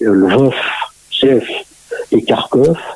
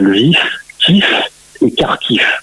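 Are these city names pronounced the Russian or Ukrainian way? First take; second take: Russian; Ukrainian. First: The names are pronounced in the Russian form. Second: The names are pronounced in the Ukrainian form. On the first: "l'orthographe russe hein, euh, fait prononcer" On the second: "en ukrainien c'est bien"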